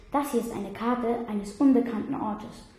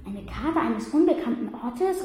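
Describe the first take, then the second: First: Said in the usual way. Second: Ungläubig nachgefragt, „unbekannten“ betont, Ende steigt. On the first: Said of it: "begann Finoligos". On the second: A narrator's reading. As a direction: kann es kaum glauben. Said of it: "rief ich ungläubig". (ungläubig gerufene Rückfrage)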